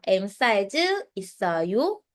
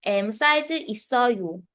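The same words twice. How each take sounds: First: "있어요" rises clearly at the end; "있어요" with a rising question tune. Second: "있어요" ends on a falling tune, no rise at the end; "있어요" falls off like a plain statement. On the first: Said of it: "dapat tataas siya". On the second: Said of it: "Kapag sabi kasing". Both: Shown as a demonstration.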